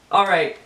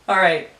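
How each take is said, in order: Both takes have the same delivery.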